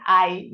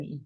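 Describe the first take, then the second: First: "I" said as the diphthong "eye"; vowel demonstration. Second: "I" said as a plain "ee" sound; contrasting vowel. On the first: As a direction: give "I" its full gliding "ah-ee" sound. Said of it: "lo digo con I". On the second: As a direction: give "I" a single i vowel, no glide. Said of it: "no con I". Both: Shown as a demonstration.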